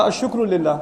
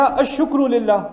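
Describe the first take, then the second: First: Said in the usual way. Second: "الشکر للہ" drawn out, each word spaced; slow demo phrase. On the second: Shown as a demonstration. Teacher slowly sounding out "الشکر للہ" for the class.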